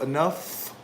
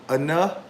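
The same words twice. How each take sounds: First: The final sound of the word is clearly heard. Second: The final sound of the word is dropped. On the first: The speaker calls it right. "instead of enough" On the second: The speaker calls it wrong. "if it just said enough"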